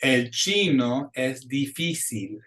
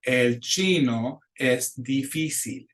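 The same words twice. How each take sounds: First: Slow, every I a long pure ee; "chino" and "difícil" with pure ee; slow model line. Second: Even slower repeat; "difícil" with each I a clean ee. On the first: Teacher models the Spanish I for students to repeat, slow. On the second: Teacher repeats the line for students, slow. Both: Shown as a demonstration. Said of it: "So it's that long E".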